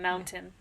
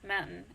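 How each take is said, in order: First: The middle t sound is clearly pronounced. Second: The middle t sound is dropped. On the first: "and not" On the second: "Coloradans say mountain. ... no tea in that"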